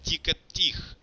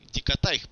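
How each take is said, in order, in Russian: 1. В конечном слоге простой гласный 'i'. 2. В конечном слоге дифтонг 'ai'.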